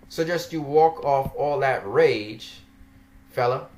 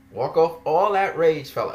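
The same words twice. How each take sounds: First: Said in the usual way. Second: Sarcastic parroting of a condescending line; mocking quote. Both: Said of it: "as if I'm angry".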